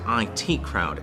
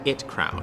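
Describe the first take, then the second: First: IT is spoken as two separate letters. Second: IT is spoken as the single word it. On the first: "where I come from is pronounced" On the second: "as opposed to"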